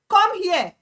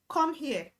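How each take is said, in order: First: The words are shouted with forceful stress. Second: The words are projected, carrying without shouting. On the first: The speaker calls it wrong. "When you are shouting, you are putting emphasis or stress on the word" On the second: The speaker calls it right. "When you are projecting, you're trying to push your voice above the normal limit"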